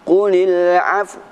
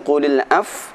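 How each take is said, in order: First: The ending closes with rounded lips and a w sound. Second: The ending stops abruptly without any w sound. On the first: The speaker calls it right. "cara membacanya qulil af" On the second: The speaker calls it wrong. "bukan qulil af"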